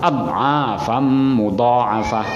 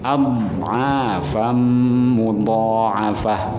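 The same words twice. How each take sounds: First: The dad sound is cut short abruptly. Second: The dad sound is drawn out slightly. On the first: The speaker calls it wrong. "Jangan langsung" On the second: The speaker calls it right. "ada mulur sedikit ya. Ada istitolah dulu"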